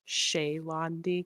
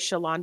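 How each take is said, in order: First: The name is said the fuller, elegant way. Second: The name is said the quick, lazy way. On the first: The speaker calls it right. "I always want her to be pronounced like Shaylandi because it sounds more elegant" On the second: The speaker calls it wrong. "I always say Shalandi because I'm lazy"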